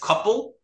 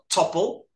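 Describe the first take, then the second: First: The name begins with a k sound. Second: The name begins with a t sound. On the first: This is the name's real form. The speaker calls it right. "His name is Couple" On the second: This is how he says it with his speech impediment. The speaker calls it wrong. "but he calls himself Topple"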